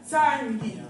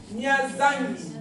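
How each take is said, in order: First: Said in the usual way. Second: Mia Zangi said very slowly; slow demo. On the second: Shown as a demonstration. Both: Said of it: "tu vas entendre".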